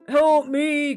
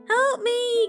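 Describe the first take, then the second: First: The voice is calm and ordinary. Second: The voice is shrill and frightened.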